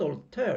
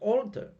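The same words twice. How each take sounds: First: The stress is on the second syllable. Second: The stress is on the first syllable. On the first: The speaker calls it wrong. "But it's not alter" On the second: The speaker calls it right. "The stress falls on the first syllable"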